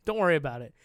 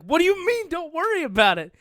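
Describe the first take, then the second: First: Said in the usual way. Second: Very high, loud mock outburst; exasperated disbelief. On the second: Daughter to dad over a mishap, exasperated. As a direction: throw it back in loud, squealed alarm.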